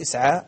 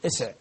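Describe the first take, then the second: First: Said in the usual way. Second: "اسع" stopped on a vowelless ع, no final a; final vowel dropped. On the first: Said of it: "ويقول في اسعى اسع". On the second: Shown as a demonstration. Teacher showing the brothers' overdone deletion, "اسع" with silent ending. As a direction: close "اسع" on the bare consonant ع. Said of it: "يبالغ في ذلك فيحذف".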